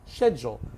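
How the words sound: It is said in a British accent. "U K"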